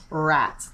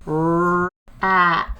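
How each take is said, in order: First: Said in the usual way. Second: "Rat" with a long rrr, then a held "at"; slow, separated sounds. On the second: Shown as a demonstration. Teacher isolating the first sound, "Rat" said very slowly. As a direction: stretch each part of "Rat" out slowly. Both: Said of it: "I'm gonna say it slowly".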